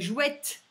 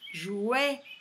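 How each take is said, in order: First: The final consonant is pronounced. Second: The final consonant is silent. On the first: The speaker calls it wrong. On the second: The speaker calls it right.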